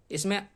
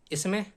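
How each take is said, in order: Both takes have the same delivery.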